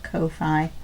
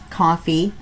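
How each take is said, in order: First: It is said as two separate parts, Ko-Fi. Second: It is said exactly like the word coffee. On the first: This is how the speaker prefers to say it. "I want to call it Ko-Fi" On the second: This is how the company says it. "I guess they pronounce it coffee"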